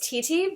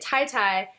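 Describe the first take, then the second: First: Each syllable has a 'tee' vowel sound. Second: Each syllable has a 'tie' vowel sound. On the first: This is the family name's original pronunciation. The speaker calls it right. "so it's Titi" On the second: This is how the family had been saying it. The speaker calls it wrong. "I was pronouncing it Tai Tai for about twenty-eight, twenty-nine years"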